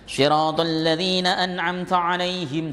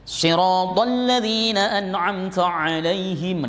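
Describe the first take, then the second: First: The letters are articulated plainly and simply. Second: The letters are articulated very heavily and deliberately. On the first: Other reciters recite it more simply. "Cukup begitu ada" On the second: Some reciters polish their recitation to this degree. "Ada yang begitu"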